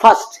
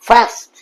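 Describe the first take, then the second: First: The vowel is short and clipped. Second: The vowel is long and drawn out. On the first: The speaker calls it wrong. "Not fast" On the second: The speaker calls it right. "Long অ্যা, অ্যা কিন্তু long, দীর্ঘ। কিরকম?"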